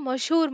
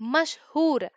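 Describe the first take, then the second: First: Said quickly with the middle h sound dropped. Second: Said carefully with the middle h sound pronounced.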